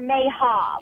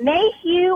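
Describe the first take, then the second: First: The last syllable ends with an 'uh' sound. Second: The last syllable ends with an 'ew' sound. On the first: The speaker calls it right. "I believe it's Mayha" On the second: The speaker calls it wrong. "What am I saying it incorrectly?"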